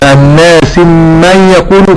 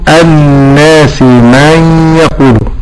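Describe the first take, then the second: First: The m sound is short, not doubled. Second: The m sound is held and doubled. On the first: The speaker calls it wrong. "عدم تشديد الميم" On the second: The speaker calls it right. "ولكن أقول"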